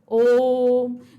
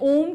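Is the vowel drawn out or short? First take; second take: drawn out; short. First: The vowel is held and drawn out long. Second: The vowel is short and cut off quickly. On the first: The speaker calls it right. "हम क्या बोलते हैं?" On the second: The speaker calls it wrong. "हम ऐसे नहीं बोलते ओम करके, तो हमने छोड़ दिया ना"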